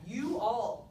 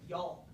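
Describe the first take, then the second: First: The two words are said fully and separately. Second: The vowels are mushed together into one word. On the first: "Too difficult" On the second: "We're just going to mush those vowels together"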